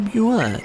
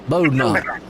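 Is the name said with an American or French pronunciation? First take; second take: French; American. First: The name is said with a French pronunciation. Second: The name is said with an American pronunciation.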